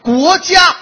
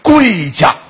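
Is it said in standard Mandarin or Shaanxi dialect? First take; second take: standard Mandarin; Shaanxi dialect. First: It is said in standard Mandarin. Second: It is said in Shaanxi dialect.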